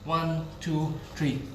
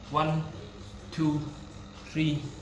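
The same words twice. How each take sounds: First: The count is rushed, shorter than three seconds. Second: The count is slow and even over three seconds. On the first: The speaker calls it wrong. "the three second no longer" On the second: The speaker calls it right. "It should be"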